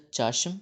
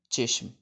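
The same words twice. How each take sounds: First: چاشم with an open "a": chashm; open first vowel. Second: چشم with an "e": cheshm; short e vowel. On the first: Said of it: "دو طریقے سے لکھا جاتا ہے". (چاشم، چ پر زبر کے ساتھ) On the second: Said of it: "زیر کے ساتھ". (چشم، چ کے نیچے زیر کے ساتھ) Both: Shown as a demonstration.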